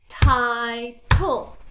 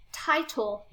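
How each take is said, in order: First: "Title" said louder as "ti" and "tle"; split into syllables. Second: Said in the usual way. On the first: Shown as a demonstration. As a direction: break "Title" into two parts. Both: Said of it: "Right there".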